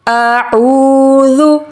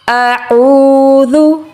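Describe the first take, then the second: No difference in how they are said.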